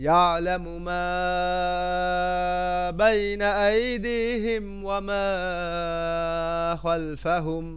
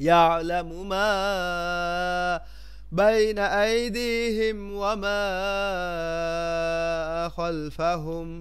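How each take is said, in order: Both takes have the same delivery.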